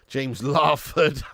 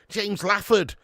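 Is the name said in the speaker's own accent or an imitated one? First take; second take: own; imitated. First: The name is said in the speaker's own accent. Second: The name is said in an imitated other accent. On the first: "Whereas I said James Larford" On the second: "that makes sense in your accent... because you'd go"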